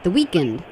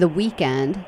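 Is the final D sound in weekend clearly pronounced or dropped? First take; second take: dropped; pronounced. First: Weekend is said without the D, like weaken. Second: Weekend is said normally, with its final D. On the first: The speaker calls it wrong. "he doesn't even pronounce the D" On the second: The speaker calls it right. "instead of saying the weekend"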